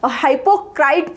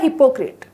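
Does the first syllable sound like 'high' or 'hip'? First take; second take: high; hip. First: The first syllable sounds like 'high'. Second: The first syllable sounds like 'hip'. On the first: The speaker calls it wrong. "कई वो लोग इसको हाइपोक्राइट pronounce करते हैं, वो गलत है" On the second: The speaker calls it right. "ये है हिपोक्रेट"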